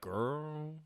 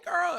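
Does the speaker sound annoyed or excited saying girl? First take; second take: annoyed; excited. First: The word is said in an annoyed, exasperated tone. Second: The word is said in an excited, upbeat tone. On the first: The speaker is irritated with someone. "you could be annoyed, to be like girl" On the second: The speaker is happy to see someone. "it could be excited, like oh hey girl"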